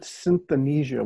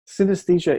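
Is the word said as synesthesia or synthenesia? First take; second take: synthenesia; synesthesia. First: The word is said as synthenesia. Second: The word is said as synesthesia.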